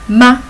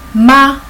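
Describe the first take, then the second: First: The pitch is short, light and unstressed. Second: The pitch stays high and level. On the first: It marks a question. "with neutral, we pronounce as ma" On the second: It means mother. "With the first tone, we pronounce as ma, as mother"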